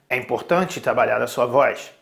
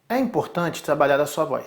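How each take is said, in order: First: It is said at a deeper pitch. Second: It is said at a higher pitch.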